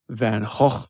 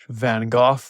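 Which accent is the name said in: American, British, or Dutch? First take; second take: Dutch; British. First: The name is said in a Dutch accent. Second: The name is said in a British accent.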